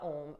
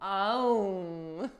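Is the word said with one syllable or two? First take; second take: one; two. First: It is one syllable rhyming with home. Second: It is two syllables, ah then oh. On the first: "like rhyming with home" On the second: "they pronounce it with two syllables, Ah and Oh"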